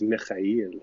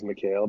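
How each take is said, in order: First: The surname is said in its traditional way. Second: The surname is said in an anglicized way. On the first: This is the name's original form. "proper pronunciation" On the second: This is how the family has always said it. "the white way of saying it"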